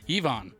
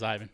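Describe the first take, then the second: First: The name is said like Yvonne. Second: The name is said like Ivan. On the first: This is how the American voice says it. The speaker calls it wrong. "They never say Ivan. It's like Yvonne" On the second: This is how the Australian voice says it. The speaker calls it right. "Australian says Ivan"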